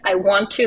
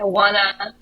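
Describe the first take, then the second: First: Want and to are said as separate full words. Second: Want and to are run together as wanna. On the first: This is the form learned in school. "they don't say like I want to" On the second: This is how local people actually talk. "They say I wanna"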